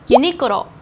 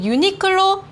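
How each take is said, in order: First: The word is pronounced with Japanese sounds. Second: The word is pronounced with Korean sounds.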